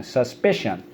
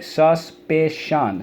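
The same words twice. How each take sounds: First: Said in the usual way. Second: "Suspicion" slowly as sus, pi, cion; syllable by syllable. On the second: Shown as a demonstration. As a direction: sound out "Suspicion" in separate beats. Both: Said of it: "So let's go".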